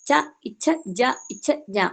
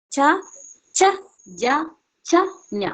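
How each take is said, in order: First: ഇച്ഛ with an extra short "i" before the aspirated ch; added "i" sound. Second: Said in the usual way. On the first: Shown as a demonstration. Teacher shows students what to avoid, ഇച്ഛ with an "i" stuck on the front. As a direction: say ച, ഇച്ഛ, ജ, ഇച്ഛ, ഞ with a linking "i". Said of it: "അങ്ങനെ പറയണ്ട". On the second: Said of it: "normal pronounce ചെയ്യുന്ന പോലെ".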